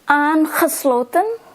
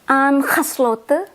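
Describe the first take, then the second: First: The final n sound is clearly pronounced. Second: The final n sound is left off. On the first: "I will read with the end" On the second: "then I will read without the end"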